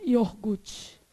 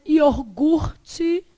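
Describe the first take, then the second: First: "iogurte" quick and falling, as "iorgute", the r moved forward; popular pronunciation. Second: "iogurte" very slow and loud, syllable by syllable; careful spelling pronunciation. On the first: Retold or imitated. Teacher imitating how people say it, casual popular pronunciation. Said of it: "Isso aqui é o povo falando". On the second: Shown as a demonstration. Teacher mocking how people write it, slow syllable-by-syllable. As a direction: stretch "iogurte" into separated, stressed syllables. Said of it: "Escreve iogurte".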